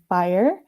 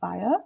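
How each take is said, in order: First: It is said in an American accent, R pronounced. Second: It is said in a British accent, R dropped.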